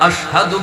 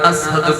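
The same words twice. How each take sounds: First: The middle consonant is a 'sh' sound. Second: The middle consonant is an 's' sound. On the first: This is the proper form he could not manage. The speaker calls it right. "আশহাদু বলতে পারে না" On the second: This is how he actually said it. The speaker calls it wrong. "আশহাদু কয়"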